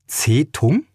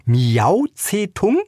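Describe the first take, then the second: First: Unbelieving. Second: Slow, high, drawn-out disbelieving question; unbelieving. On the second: Woman reads the cat's name on the notice, slow incredulous rise. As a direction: stretch "Miau Zetung?" slowly upward as if it can't be true. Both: A narrator's reading. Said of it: "fragte sie ungläubig".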